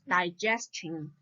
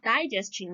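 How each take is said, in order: First: The stress is on the second syllable. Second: The stress is not on the second syllable. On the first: The speaker calls it right. "we should put stress on the syllable j, j, ge" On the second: The speaker calls it wrong. "It's not digestion"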